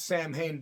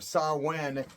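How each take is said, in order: First: The second syllable starts with an H sound. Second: The second syllable starts with a W sound. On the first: The speaker calls it wrong. "It's really not the correct pronunciation" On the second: The speaker calls it right. "is how it's really pronounced"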